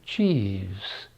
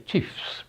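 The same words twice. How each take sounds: First: The final consonant is a soft V sound. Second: The final consonant is a hard F sound. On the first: The speaker calls it wrong. "We do not say chiefs" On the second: The speaker calls it right. "we say chiefs with a hard F"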